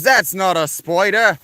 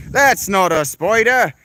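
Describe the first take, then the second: First: Higher, louder, slow Aussie scoff; mock Australian. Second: Higher, louder, slow know-it-all Aussie; mock Australian again. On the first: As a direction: imitate the smug chat commenter. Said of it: "this fucking Australian guy gets in my chat and goes". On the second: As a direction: ham up the commenter's scoff. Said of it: "This guy in my, my comments telling me".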